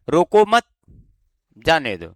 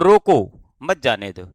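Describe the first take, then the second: First: There is a pause right after 'mat'. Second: There is a pause right after 'roko'. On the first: Do not stop the person; let them go. "अब अपन को मत के बाद रुकना है" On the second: Stop the person; do not let them go. "अब यहां पर अपन को रुकना है, कॉमा लगा हुआ है, तो रोको"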